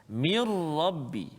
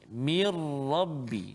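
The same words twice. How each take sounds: The two takes are said the same way.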